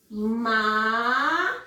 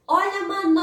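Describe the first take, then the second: First: "Manobra" split into MA, NO, BRA with long gaps; syllable by syllable. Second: Higher vendor-like call, stretching the middle of "manobra"; calling out the word. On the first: Teacher dividing a word for the class, syllable by syllable. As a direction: separate each syllable of "Manobra", slowly. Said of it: "fazer a separação silábica". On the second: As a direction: sing out "manobra" with a very long NO. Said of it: "Vou oferecer a palavra". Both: Shown as a demonstration.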